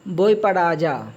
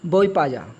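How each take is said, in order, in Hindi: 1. फ़िक्रे का हर अक्षर बोला जाता है। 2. आख़िरी दो शब्द मिलकर एक हो जाते हैं।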